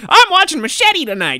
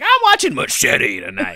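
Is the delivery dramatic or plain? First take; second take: plain; dramatic. First: It is said in a plain, ordinary voice. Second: It is said in a dramatic movie-trailer voice. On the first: The speaker calls it wrong. "you should never say it with like" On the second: The speaker calls it right. "You should be like I'm watching machete tonight. It should always be like that"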